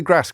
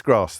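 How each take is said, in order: First: "grass" with a short Northwest A. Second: "grass" with a long southern AH. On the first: Naming the lad's slight accent, short-A "grass". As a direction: say "grass" with the vowel of "cat". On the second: Contrasting with the lad's accent, long-A "grass". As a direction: say "grass" as "grahss". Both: Shown as a demonstration. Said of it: "Northwest accent".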